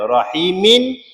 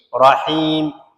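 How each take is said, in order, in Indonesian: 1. Kata itu diakhiri dengan suku kata -in. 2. Kata itu berakhir mendadak pada huruf m.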